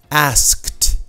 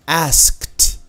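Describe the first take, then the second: Both takes have the same delivery.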